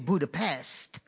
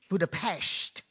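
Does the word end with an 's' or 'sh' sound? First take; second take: s; sh. First: The last syllable has a plain s sound. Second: The last syllable has a sh sound. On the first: The speaker calls it wrong. "But you don't say Budapest" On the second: The speaker calls it right. "There's a sh and a tin at the end"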